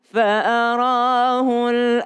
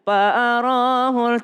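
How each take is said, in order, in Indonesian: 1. Kata ini dimulai dengan bunyi F. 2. Kata ini dimulai dengan bunyi P. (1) "tapi harus fa" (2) "tidak ada huruf pa. Jadi jangan fa'arahul"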